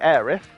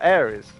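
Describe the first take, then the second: First: The name ends with a th sound. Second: The name ends with an s sound. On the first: "with a T H" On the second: "with an S"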